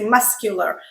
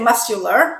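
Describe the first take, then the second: First: The C is pronounced as a K sound. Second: The C is silent, not pronounced at all. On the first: The speaker calls it right. "it does follow the rule" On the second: The speaker calls it wrong. "We don't say muscular"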